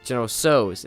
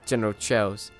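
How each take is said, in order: First: The second word begins with an s sound. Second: The second word begins with a ch sound. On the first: The speaker calls it right. "It's so" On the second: The speaker calls it wrong. "It's not Chow"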